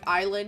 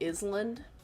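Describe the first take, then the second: First: The s in the word is silent. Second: The s in the word is pronounced. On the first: "words that are spelt different than how they sound" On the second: "I think of that in my head when I write it"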